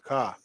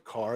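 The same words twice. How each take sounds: First: The final R sound is dropped. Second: The final R sound is clearly pronounced. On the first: "it's car" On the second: "he doesn't say car"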